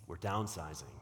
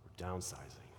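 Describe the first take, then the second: First: Announcing a sad cutback; sad downsizing. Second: Much softer, lower, "downsizing" sunk with a pained face; hushed, pitying downsizing; mock grief. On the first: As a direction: lower and softer, a touch sorrowful on downsizing. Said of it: "I would say it like that". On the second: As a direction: say "downsizing" like confessing bad news, eyebrows raised. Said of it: "Did you see my eyebrows?". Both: Shown as a demonstration.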